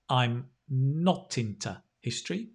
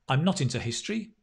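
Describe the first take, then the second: First: The sentence is said at a slow pace. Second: The sentence is said at a fast pace.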